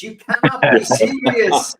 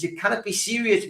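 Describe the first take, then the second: First: Loud, slow, drawn-out tennis tantrum; mock tennis outburst. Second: Said in the usual way. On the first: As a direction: bellow it like an outraged tennis star at the umpire. Repeats quote as tennis outburst.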